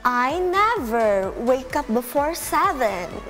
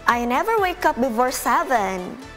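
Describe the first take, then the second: First: The sentence is said more slowly. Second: The sentence is said at a normal pace.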